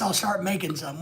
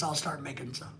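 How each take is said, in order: First: Said in the usual way. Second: A faint afterthought echo; quiet echo. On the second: Shown as a demonstration. Streamer repeating his plan to himself, much softer.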